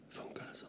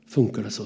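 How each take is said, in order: First: Breathy whispered question, barely audible. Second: Said in the usual way. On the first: Retold or imitated. Retelling the worker's amazed reaction, whispered. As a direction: drop to a hushed whisper in disbelief.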